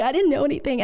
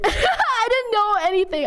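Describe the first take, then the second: First: Said in the usual way. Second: High, half laughing, half crying; laughing through tears. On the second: Real, not acted. Streamer recalling first grade to chat, laughing through tears. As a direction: let it break into a teary laugh. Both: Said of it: "I'm tearing up".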